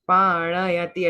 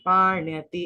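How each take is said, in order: First: A full vowel follows the n sound. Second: The n sound joins straight onto y. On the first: The speaker calls it wrong. "ण पूरा नहीं बोलना, पाणयति ऐसे नहीं" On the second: The speaker calls it right. "पाण्यति ऐसे।"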